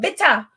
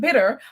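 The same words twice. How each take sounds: First: It is said in a put-on Jamaican accent. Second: It is said in a plain, non-Jamaican accent. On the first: The speaker calls it right. "but bitter" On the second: The speaker calls it wrong. "Not bitter"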